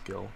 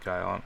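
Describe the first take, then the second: First: The word rhymes with 'gill'. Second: The word rhymes with 'mile'. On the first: The speaker calls it wrong. "I don't think it's gil" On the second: The speaker calls it right. "I always pronounce that guile"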